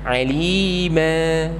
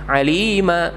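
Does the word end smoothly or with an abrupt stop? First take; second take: smooth; abrupt stop. First: The word ends smoothly and evenly. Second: The word ends with a pressed, abrupt stop. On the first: The speaker calls it right. "Jadi lempeng aja berhentinya" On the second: The speaker calls it wrong. "ini adalah penekanan. Jadi ada kesan hamzah sukun di sana"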